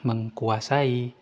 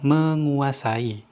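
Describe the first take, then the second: First: The k sound after the prefix is kept. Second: The k sound after the prefix is dropped. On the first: The speaker calls it wrong. "bukan mengkuasai" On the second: The speaker calls it right. "kata menguasai"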